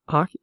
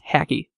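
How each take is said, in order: First: The first vowel sounds like the one in 'hock'. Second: The first vowel sounds like the one in 'hack'. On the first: The speaker calls it wrong. "That sounds like I'm saying the sport hockey" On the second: The speaker calls it right. "but it's hacky"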